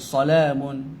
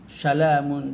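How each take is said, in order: First: The word begins with a clear s sound. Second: The word begins with a sh sound. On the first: The speaker calls it right. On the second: The speaker calls it wrong.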